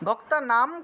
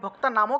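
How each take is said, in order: First: The word ends on a bare m sound. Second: The word ends with a vowel after m. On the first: The speaker calls it wrong. "ভক্তা নাম না বলে" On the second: The speaker calls it right. "ভক্তা নামও কেন বললাম"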